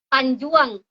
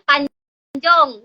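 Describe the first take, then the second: First: The last syllable has a ua vowel. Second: The last syllable has an o vowel. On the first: This is the local Ranai dialect form. "Jadi kalau di Ranai ini apa ya?" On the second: This is the speaker's home dialect form. "Kalau di tempat lahir saya tuh nyebutnya panjong gitu, lebih ke o"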